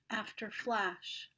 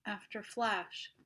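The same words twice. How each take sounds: The two takes are said the same way.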